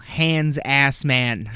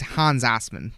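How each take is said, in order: First: The name is said with an American accent. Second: The name is said with a German accent. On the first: "I'm going to pronounce this as American as possible" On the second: "literally, it's"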